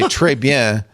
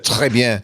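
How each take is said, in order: First: The R is said with an American accent. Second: The R is said with a French accent. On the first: "Just do R because they love, they think the English, American accent is so cute" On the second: "Instead of"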